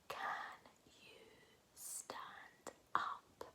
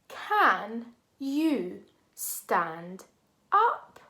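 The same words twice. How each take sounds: First: It is said in a whisper. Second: It is spoken aloud in a normal voice.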